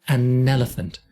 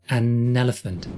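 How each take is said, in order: No difference in how they are said.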